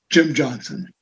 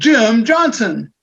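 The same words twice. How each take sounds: First: It is said in a calm, moderate voice. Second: It is said loudly with high excited energy. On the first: "The most common would be something along this line" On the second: "If I wanted it to be really exciting and create more energy"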